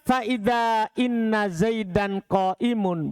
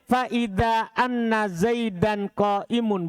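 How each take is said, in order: First: The particle after faida starts with an i vowel. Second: The particle after faida starts with an a vowel. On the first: "maka bisa dibaca inna" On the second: "bisa juga dibaca apa? Anna"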